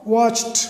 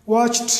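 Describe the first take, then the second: No difference in how they are said.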